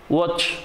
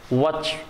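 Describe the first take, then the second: First: Said in the usual way. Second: Watch with an American vowel; American accent. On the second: Shown as a demonstration. Teacher showing learners the American variant, American accent. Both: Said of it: "or in American accent".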